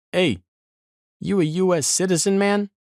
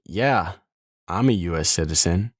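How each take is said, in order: First: Much higher, casual mock guard voice; imitated border guard. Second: Said in the usual way. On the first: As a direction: play the bored checkpoint guard, pitched way up. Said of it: "this dude wearing fatigue says". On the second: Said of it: "I'm like".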